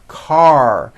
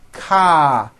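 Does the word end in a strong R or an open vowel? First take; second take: strong R; open vowel. First: It ends with a strong R sound. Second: It ends on an open vowel with no R. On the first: The speaker calls it right. "The R needs to be very strong" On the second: The speaker calls it wrong. "ending with an A vowel"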